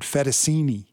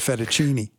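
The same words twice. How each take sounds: First: The middle consonant is pronounced as an s. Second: The middle consonant is pronounced as ch. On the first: The speaker calls it wrong. "he ordered fettuccine" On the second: The speaker calls it right. "It's a ch, not a s"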